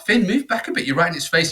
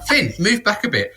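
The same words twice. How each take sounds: First: High sharp call to son; urgent warning. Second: Sharp high call to son; urgent warning. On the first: Dad warning son off the venomous snake, high urgent call. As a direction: get him away from it now. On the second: Dad warning son off the snake, high urgent call. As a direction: pull him back from the snake, fast. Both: Retold or imitated.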